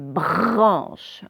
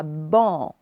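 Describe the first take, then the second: First: "branche" with a long, exaggerated r after the b; correct version with r. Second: "ban" drawn out, b straight into the nasal vowel, no r; wrong version without r. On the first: Teacher correcting pupils on the blend, exaggerated r. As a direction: lean hard on the r in "branche". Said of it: "c'est branche". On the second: Teacher warning pupils against dropping r, r-less wrong version. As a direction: say "ban" slowly with the r missing. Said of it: "C'est pas ban". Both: Shown as a demonstration.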